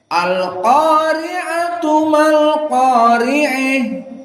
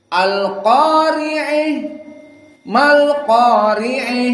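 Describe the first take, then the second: First: The first word runs on smoothly with an open vowel. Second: The first word ends with a break and tilted vowel. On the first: The two verses are read as one unit. "jika disatukan ... dibaca dalam keadaan fathah, tidak al-imalah al-kubra" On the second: Each verse is read as a separate unit. "satu ayat satu ayat diputus, maka dibaca al-imalah al-kubra"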